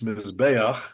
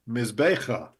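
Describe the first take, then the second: First: The 'a' vowel comes before the final 'ch'. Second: The 'a' vowel comes after the final 'ch'. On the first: The speaker calls it right. "in this word, it's mizbeach" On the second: The speaker calls it wrong. "if you don't know this idea, this rule, it would be mizbecha"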